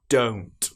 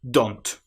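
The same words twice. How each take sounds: First: The vowel is a long combined O sound. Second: The vowel is a short O sound. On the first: The speaker calls it right. "It needs to be O" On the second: The speaker calls it wrong. "They use the short O sound"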